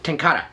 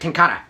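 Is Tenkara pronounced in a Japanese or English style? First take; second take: Japanese; Japanese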